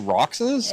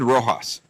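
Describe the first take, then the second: First: The middle consonant sounds like ks. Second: The middle consonant sounds like an h. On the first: The speaker calls it wrong. "that would be wrong" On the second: The speaker calls it right. "stop calling it Rojas like it has an H"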